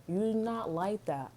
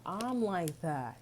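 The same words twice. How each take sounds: First: Slow, leaning on "You're" in "You're not like that"; stress on you're. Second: Slow, leaning on "I'm" in "I'm like that"; stress on I'm. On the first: Telling viewers the other person isn't like that, slow stress on "You're". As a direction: press "You're" slowly. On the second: Owning it to viewers, slow stress on "I'm". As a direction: press "I'm" slowly and firmly. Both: Shown as a demonstration.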